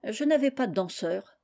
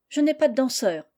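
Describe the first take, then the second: First: Understated, sulky reply; sullen. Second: Higher, dry rebuff; curt. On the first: Girl explaining to Amanda why she sat out, sullenly. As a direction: answer glumly, without effort. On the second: Girl turning down a village boy's invitation, curtly. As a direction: answer curtly, shutting the invitation down. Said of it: "répondit sèchement Félicie". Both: A narrator's reading.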